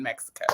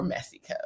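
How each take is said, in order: First: Said in the usual way. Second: Mexico said as "MESS-ee-co"; playful mispronunciation. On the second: Shown as a demonstration. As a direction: drop the k sound in Mexico: "Messico". Alternative saying after "or.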